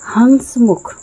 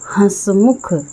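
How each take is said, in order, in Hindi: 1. पहले स्वर के बाद एक पूर्ण नासिक व्यंजन आता है। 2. पहला स्वर अनुनासिक है, पूर्ण नासिक व्यंजन के बिना। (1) "अनुनासिक की जगह अनुस्वार का प्रयोग कर देती हूँ तो हम इसे पढ़ेंगे" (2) "इस शब्द में मैं ये अनुनासिक या चंद्रबिंदु का प्रयोग कर रही हूँ"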